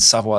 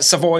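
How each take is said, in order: First: The name is said with a French pronunciation. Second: The name is said with an English pronunciation. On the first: "Savoy is the French pronunciation" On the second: "Savoy is the English pronunciation"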